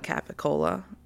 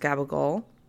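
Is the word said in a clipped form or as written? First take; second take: as written; clipped. First: The word is said fully, as it is spelled. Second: The word is said in a short, clipped form. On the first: This is how the word is read from its spelling. "Because I'm American and that's how I read it" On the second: This is how a relative taught the word. "my aunt told me it's pronounced gabagol"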